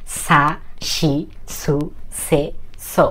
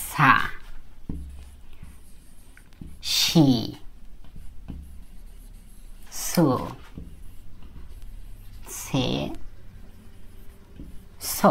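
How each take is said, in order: First: Very slow, drawn-out run of সা শি সু সে স with "শি" as shi; Japanese sa row. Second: Each kana said alone with long pauses, "শি" as shi; Japanese sa row. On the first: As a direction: stretch each syllable of the row in one slow run. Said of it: "মাঝখানে একটা শি হবে উচ্চারণের ক্ষেত্রে". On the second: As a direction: sound out সা শি সু সে স one at a time. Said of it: "স এর উচ্চারণটা actually এরকম হয়". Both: Shown as a demonstration.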